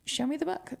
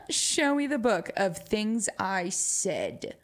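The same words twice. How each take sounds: First: High playful. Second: Slow, with the word "Show" leaned on hard; slow emphatic. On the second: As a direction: drag out "Show me the book", punching "Show". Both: Shown as a demonstration.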